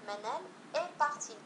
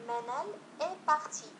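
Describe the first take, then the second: No difference in how they are said.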